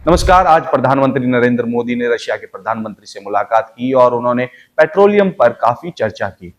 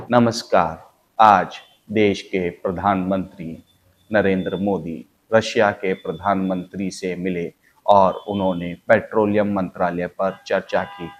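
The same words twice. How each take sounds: First: Brisker news bulletin; news read at a livelier clip; faster news read. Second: Put-on slow, measured old Doordarshan newsreader; slow formal TV news bulletin; slow news read. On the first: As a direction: pick up the newsreader pace a little. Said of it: "इसकी speed थोड़ी सी बढ़ा दें". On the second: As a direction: read the news slowly and formally, a touch lower. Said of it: "तो ये speed बड़ी कम थी". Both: Shown as a demonstration.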